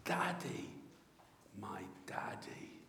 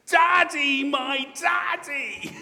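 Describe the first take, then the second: First: Put-on hushed, falling echo of a child's call; tender, fading murmur; ringtone cry, softened. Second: Put-on high, loud child's cry of daddy; ringing, stretched-out cry. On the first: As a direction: let it sink low to a whisper. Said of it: "when my ringtone goes". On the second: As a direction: call out high and drawn-out to a long-lost father. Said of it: "comes the cry".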